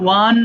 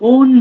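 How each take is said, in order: First: It starts with a 'w' before an 'a' vowel. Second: It starts with an 'o' vowel, no 'w'. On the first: The speaker calls it right. "উচ্চারণ কিন্তু ওয়ান হবে" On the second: The speaker calls it wrong. "ওয়ান না বলে ওন বলে ফেলতে পারি"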